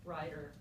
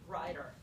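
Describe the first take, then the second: First: The middle consonant is a quick tongue flap. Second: The middle consonant is a quick tongue flap.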